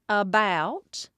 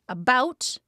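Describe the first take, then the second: First: Said with an imitated Appalachian vowel. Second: Said with a standard American vowel.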